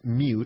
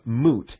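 First: The vowel has a 'y' glide, like 'you'. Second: The vowel is a plain 'oo' without glide. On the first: "pronounce the U with the U sound" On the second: "it's pronounced moot"

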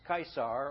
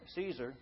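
First: The name is pronounced differently from everyday English. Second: The name is pronounced the everyday English way.

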